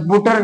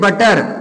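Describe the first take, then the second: First: The first vowel is a rounded 'oo' sound. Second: The first vowel is an open 'uh' sound. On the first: The speaker calls it wrong. "बुटर नहीं पढ़ेंगे" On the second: The speaker calls it right. "इसे बटर"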